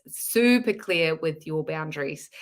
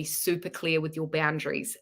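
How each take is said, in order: First: SUPER drawn out slowly for emphasis; stress on SUPER. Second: Said in the usual way. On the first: Real, not acted. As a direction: lean on "super" and stretch it. Repeats the phrase for emphasis.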